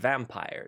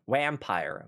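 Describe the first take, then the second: First: The word begins with a v sound. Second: The word begins with a w sound. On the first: The speaker calls it right. "of course you have werewolf and vampire" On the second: The speaker calls it wrong. "So that's wrong"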